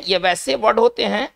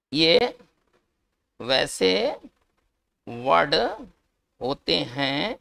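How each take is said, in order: First: Said in the usual way. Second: ये, वैसे, word, होते हैं, each word set apart by long pauses; slow dictation. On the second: Shown as a demonstration. Teacher dictating the definition to students, slow word-by-word pauses.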